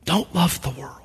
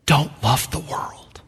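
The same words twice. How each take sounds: First: The warning said again, near hushed; soft repeated warning, not a Welsh accent; echoed quote, even softer. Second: Put-on slow and much softer, without the Welsh accent; hushed, slow plain warning, not a Welsh accent; quiet retold preacher quote. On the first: Retold or imitated. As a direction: repeat it much softer after a long pause. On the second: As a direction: let the warning drop soft and slow. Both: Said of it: "he stopped in that Welsh accent".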